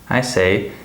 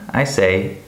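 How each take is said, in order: Both takes have the same delivery.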